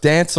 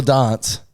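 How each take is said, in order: First: Dance with the vowel of "cat"; short-A dance. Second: Dance with the vowel of "father"; long-A dance. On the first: Friend testing his mate's vowels, dance with short "a". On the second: Friend testing his mate's vowels, dance with long "ah". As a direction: say dance as "dahnce". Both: Shown as a demonstration. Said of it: "Dance or dance?".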